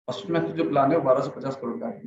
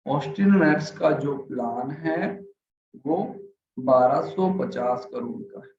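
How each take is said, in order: First: Rushed, fast delivery; deliberately hurried; fast demo. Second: Slow, dragging delivery; boring, slowed-down reading; slow, sleepy demo. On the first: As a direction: rattle it off too quickly. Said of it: "मैंने इतना fast बोला". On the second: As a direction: drag it out so they nod off. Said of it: "अगर मैं इस तरीके से बात करूं". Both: Shown as a demonstration.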